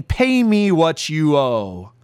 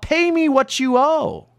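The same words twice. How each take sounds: First: Said in the usual way. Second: A mild hammed-up shout of a cruel creditor; merciless demand. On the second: A narrator's reading. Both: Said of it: "mercilessly yells out".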